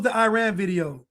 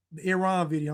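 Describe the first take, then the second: First: Iran with long "eye" and flat A, as in ran; Americanized Iran pronunciation. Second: Softer self-correction, Iran with short first vowel and open "ah"; corrected Iran pronunciation. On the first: Streamer asks chat about the video, Iran said "eye-RAN". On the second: Streamer corrects himself to chat, Iran said "ih-RAHN". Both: Real, not acted. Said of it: "I'm sorry".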